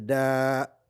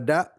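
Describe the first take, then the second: First: The vowel is long, held for two beats. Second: The vowel is short, held for one beat. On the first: "c'est da" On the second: "ce que n'est pas da"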